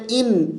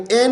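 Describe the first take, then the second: First: ان said "in", with a clear ee colour; correct i sound. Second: این said "en", with an e; wrong vowel. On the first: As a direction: close the vowel of ان to i. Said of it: "ای کی آواز جیسی آواز". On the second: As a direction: open the first sound of این to e. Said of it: "این نہیں پڑھیں گے". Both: Shown as a demonstration.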